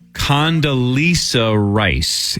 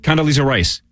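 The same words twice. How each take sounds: First: It is said slowly after a pause. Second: It is said quickly without a pause.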